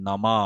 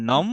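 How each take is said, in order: First: "নমা" বলুন শেষের স্বর টেনে; "নমা"-র ম-এর পরে স্বর খোলা; অ-যুক্ত পূর্ণ উচ্চারণ. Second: "নম" বলুন ম-এ থামিয়ে; "নম"-এর শেষে স্বর ফেলে দিন; হসন্ত উচ্চারণ. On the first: ("নমা" লম্বা করে, শেষে ম-এ না থেমে) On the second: ("নম" ছোট করে, "নম্"-এর মতো) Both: Shown as a demonstration. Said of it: "দুটোর উচ্চারণ পার্থক্য রয়েছে".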